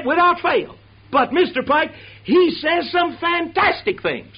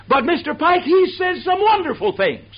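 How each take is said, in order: First: High, slow, awestruck praise; gushing fan. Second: High, breathless gushing praise; gushing fan. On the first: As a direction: marvel at the preacher's words. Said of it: "people always say to me". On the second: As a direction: gush over the preacher like an eager fan. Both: Retold or imitated.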